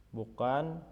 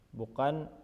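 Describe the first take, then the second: Both takes have the same delivery.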